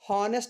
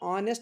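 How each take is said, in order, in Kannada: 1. ಪದ h ಶಬ್ದದಿಂದ ಆರಂಭವಾಗುತ್ತದೆ. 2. ಪದ ನೇರವಾಗಿ ಸ್ವರದಿಂದ ಆರಂಭವಾಗುತ್ತದೆ. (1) "ಹಾನೆಸ್ಟ್ ಅಂತ ಪ್ರೊನೌನ್ಸ್ ಮಾಡ್ತಾ ಇಲ್ಲ" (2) "ಆನೆಸ್ಟ್ ಅಂತ ಪ್ರೊನೌನ್ಸ್ ಮಾಡ್ತಾ ಇದ್ದೀನಿ"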